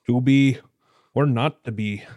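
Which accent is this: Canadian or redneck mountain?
Canadian. It is spoken in a Canadian accent. "And do just the words in an accent for Canadian accent"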